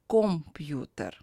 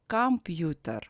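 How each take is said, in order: First: The first vowel sounds like 'o'. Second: The first vowel sounds like 'a'. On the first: The speaker calls it wrong. "not computer" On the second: The speaker calls it right. "O is unstressed, that's why we pronounce it as computer"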